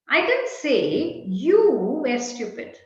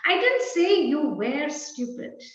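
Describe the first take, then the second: First: The word you carries the main stress. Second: The word were carries the main stress. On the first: It was said about someone else. "Perhaps I said X was stupid" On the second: It may still be true now. "Perhaps you are stupid even now"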